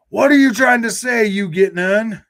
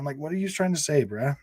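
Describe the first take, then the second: First: High, loud mock shout at the chatter; exasperated shout. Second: Said in the usual way. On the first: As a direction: yell the question like you're fed up.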